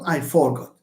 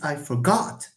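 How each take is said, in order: First: The stress is on the first syllable. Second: The stress is on the second syllable. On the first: The speaker calls it wrong. "not I forgot" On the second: The speaker calls it right. "No, it's I forgot"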